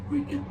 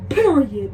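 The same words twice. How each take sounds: First: Said in the usual way. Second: Loud final verdict, Period; emphatic. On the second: Retold or imitated. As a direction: slam down the word Period. Emphatic verdict on dusty shoes.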